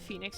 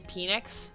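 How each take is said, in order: First: The word begins with an F sound. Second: The word begins with a P sound. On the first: The speaker calls it right. "So when I would say Phoenix" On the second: The speaker calls it wrong. "I couldn't pronounce the P H sound correctly"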